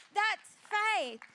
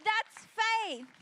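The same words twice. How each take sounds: First: Loud repeated proclamation, held firm; emphatic declaration. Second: Louder, higher, driving the point home; emphatic declaration. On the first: Preacher to congregation, repeating it loud. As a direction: hammer the point home a second time. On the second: Preacher to congregation, proclaiming faith louder. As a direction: proclaim it like the answer to everything. Preacher repeating the key line. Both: Real, not acted.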